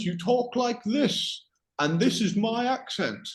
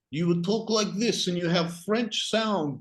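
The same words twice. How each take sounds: First: High-pitched demo of an English accent. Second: Higher-pitched mock French accent. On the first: Teacher showing student how England talks, English accent. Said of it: "So if you're from England". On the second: Teacher showing student how French people talk, French accent. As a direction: put on a French accent for demonstration. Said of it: "say, a French accent". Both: Shown as a demonstration.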